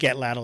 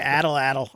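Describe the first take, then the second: First: The word is said as 'at-laddle'. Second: The word is said as 'addle addle'. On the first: The speaker calls it right. "I think atladdle is right" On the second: The speaker calls it wrong. "I like to say addle addle because that's how it looks like it's spelled to me, but that's not how you say it"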